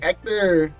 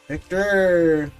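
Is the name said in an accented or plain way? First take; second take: accented; plain. First: The name is said with a Spanish accent. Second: The name is said without a Spanish accent.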